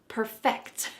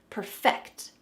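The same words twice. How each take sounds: The two takes are said the same way.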